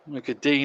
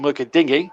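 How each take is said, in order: First: The surname is said as one syllable, 'Deen'. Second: The surname is said as two syllables, 'Dinyee'. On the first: This is how the player's name should be said. The speaker calls it right. "is the correct pronunciation" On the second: This is how some others say the player's name. The speaker calls it wrong. "some commentators still call him"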